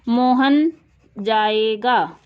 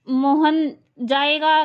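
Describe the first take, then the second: First: It is said as a plain, level statement. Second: It is said with a questioning tune. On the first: It simply states that the person will go. "ये simple sentence है, साधारण वाक्य है" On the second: It asks whether the person will go. "Question mark हो गया"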